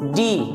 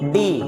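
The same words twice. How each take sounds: First: The D is soft, with the teeth together. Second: The D is hard, without the soft quality. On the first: The speaker calls it right. "It's डी, ये आपका soft sound है, अपनी दोनों दांत को बैठाते हैं" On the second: The speaker calls it wrong. "ना कि डी"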